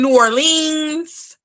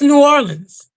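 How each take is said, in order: First: The syllables are said separately and carefully. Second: The syllables run together smoothly and easily. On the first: The speaker calls it wrong. "it ain't New Orleans" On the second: The speaker calls it right. "It just flows off the tongue real easy"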